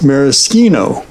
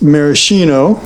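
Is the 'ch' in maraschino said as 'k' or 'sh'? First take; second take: k; sh. First: The 'ch' is said as a 'k' sound. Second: The 'ch' is said as an 'sh' sound. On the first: "I think that the Italians sometimes go with maraschino" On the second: "so you could say this maraschino"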